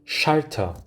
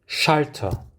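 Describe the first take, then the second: Both takes have the same delivery.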